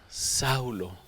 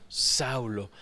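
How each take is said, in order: Both takes have the same delivery.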